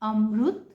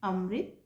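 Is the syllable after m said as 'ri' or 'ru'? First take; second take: ru; ri. First: The r is followed by a u-like vowel. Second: The r is followed by an i-like vowel. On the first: "Marathi भाषा में ... रु की तरह" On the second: "Hindi में इसका उच्चारण"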